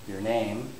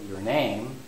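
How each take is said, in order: Both takes have the same delivery.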